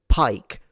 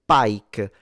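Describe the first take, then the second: First: The p has a puff of air. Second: The p has no puff of air. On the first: "We won't say pike" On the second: "we will say pike. That is because we don't have the puff of air version"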